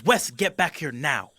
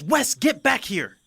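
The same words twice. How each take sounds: First: Firm call. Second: High, slow shout calling him back. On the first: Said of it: "She goes". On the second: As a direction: yell up the stairs after him. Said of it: "she goes". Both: Acted.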